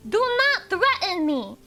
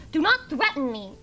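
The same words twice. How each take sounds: First: "Do not threaten me" slow, higher and loud; "Do not threaten me" in slow, heavy, raised emphasis; emphatic warning. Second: Said in the usual way. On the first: Real, not acted. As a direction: draw out each word of "Do not threaten me". Repeats warning, more forcefully.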